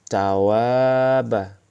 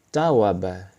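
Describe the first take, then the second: First: One vowel is drawn out long. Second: All the vowels are said short. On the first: "juga ada alif, pasti dibaca panjang" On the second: "namun tidak ada alif, dibaca pendek"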